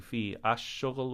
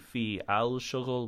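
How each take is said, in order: First: Each word is separate, with the article ash. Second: Each word is separate, with a full al. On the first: "we don't say fi ash shughul" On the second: "We don't say fi al shughul"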